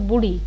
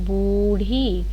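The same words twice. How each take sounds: First: The first vowel is cut short. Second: The first vowel is held long. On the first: The speaker calls it wrong. "अगर होता बूढ़ी तो छोटा हुआ होता" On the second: The speaker calls it right. "ज़्यादा लंबे ऊ की आवाज़ आ रही है ना"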